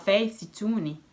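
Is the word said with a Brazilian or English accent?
Brazilian. It is said with a Brazilian Portuguese accent. "Fala Facetune"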